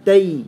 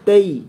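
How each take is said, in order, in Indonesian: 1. Vokal meluncur ke 'i' dengan mulut tertutup. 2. Vokal meluncur ke 'i' dengan mulut tertutup.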